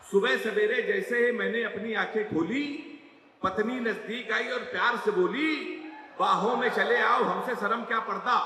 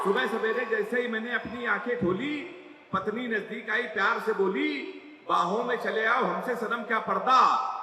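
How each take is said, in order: First: Recited verse, first take; poem recital. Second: Poem recital again. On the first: Poet reciting his couplet to the audience, recital. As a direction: recite the four lines to the crowd. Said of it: "चार line आपको सुना रहा हूं". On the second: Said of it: "सुन लो". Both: Acted.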